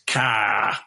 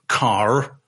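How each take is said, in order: First: The final r sound is dropped. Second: The final r sound is pronounced. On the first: "you just lose that r sound on the end" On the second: "rather than say car"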